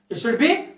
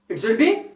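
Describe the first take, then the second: No difference in how they are said.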